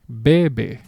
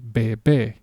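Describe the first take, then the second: First: The stress is on the first syllable. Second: The stress is on the last syllable. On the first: It means he drinks. "there is no accent mark, therefore the natural pronunciation of this word is bebe" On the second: It means baby. "This accent mark up here tells me that I have to say bebe"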